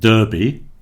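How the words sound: The first vowel is pronounced the American way. The speaker calls it wrong. "not derby, as in the Kentucky Derby in America"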